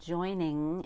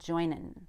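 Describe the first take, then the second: First: The word ends with a full ng sound. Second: The word ends with a plain n sound. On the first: The speaker calls it right. "make sure you're saying joining" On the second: The speaker calls it wrong. "and not joinin'"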